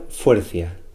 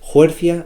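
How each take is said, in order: First: The word begins with an f sound. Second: The word begins with a breathy h sound. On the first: This is the form used in other parts of Asturias. "Es similar a la F en otras zonas de Asturias" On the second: This is the form used in eastern Asturias. "H sopuntiada ... de asturiano oriental"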